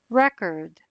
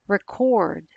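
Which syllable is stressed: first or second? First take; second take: first; second. First: The stress is on the first syllable. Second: The stress is on the second syllable. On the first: It is the noun, a disc of music. "as in, I bought the record" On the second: It is the verb, to capture sound. "as in, I want to record this song"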